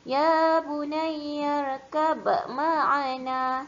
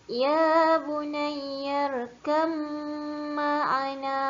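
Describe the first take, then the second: First: A separate b is sounded before the m. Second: The b merges into a held, nasal m sound. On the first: The speaker calls it wrong. "jangan baca ... Salah" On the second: The speaker calls it right. "itu cara bacaan yang betul"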